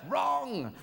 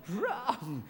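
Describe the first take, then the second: First: High sharp game-show wrong; mock buzzer-like correction. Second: Said in the usual way. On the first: Comedian to Aristotle, high mock quiz-show correction.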